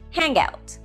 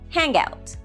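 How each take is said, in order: First: The final ng runs into the next word. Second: The final ng runs into the next word.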